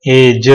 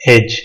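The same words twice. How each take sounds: First: एज with the final e sounded, as two beats; wrong pronunciation. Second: Said in the usual way. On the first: Shown as a demonstration. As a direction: say एज wrongly with an extra vowel after the j. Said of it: "नहीं हो". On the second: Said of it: "silent हो जाता है".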